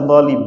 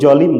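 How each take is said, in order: First: The word starts with a z sound. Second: The word starts with a j sound. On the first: The speaker calls it right. "zolim nggak bisa" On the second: The speaker calls it wrong. "Jolim lu jolim"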